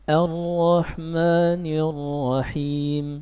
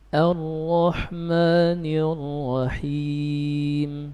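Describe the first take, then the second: First: The final long vowel is held for two counts. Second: The final long vowel is held for four counts. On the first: "Sekarang dengan dua harakat" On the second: "Kita baca dengan empat harakat"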